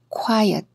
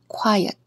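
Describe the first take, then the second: The two takes are said the same way.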